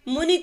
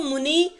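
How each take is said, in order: First: The final vowel is a short i. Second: The final vowel is a long ee. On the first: The speaker calls it right. "लिखते ई" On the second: The speaker calls it wrong. "बोलते बड़ी ई हैं"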